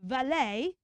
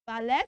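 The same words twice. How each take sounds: First: "Valet" as va-LAY, questioning; AY ending. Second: "Ballet" loud, as VA-LET with a V; wrong ET ending. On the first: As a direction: ask "Valet?" with long AY and no T. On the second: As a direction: ask "Ballet?" as VA-LET, T sounded. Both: Shown as a demonstration.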